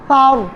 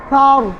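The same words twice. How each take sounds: First: The first consonant is a th sound. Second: The same.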